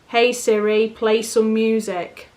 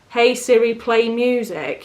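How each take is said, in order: First: It is said flatly, without enthusiasm. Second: It is said with lively enthusiasm.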